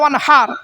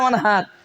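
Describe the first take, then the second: First: The h is a harsh sound from the throat. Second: The h is a plain, light breath sound. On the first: It means to offer a sacrifice. The speaker calls it right. "এই গলার ভেতর থেকে হে এটা উচ্চারণ করবে" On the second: It means to dig a canal. The speaker calls it wrong. "আর আমরা কি বলি উচ্চারণে?"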